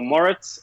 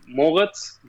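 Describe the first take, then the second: First: The name is said the American English way. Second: The name is said the German way.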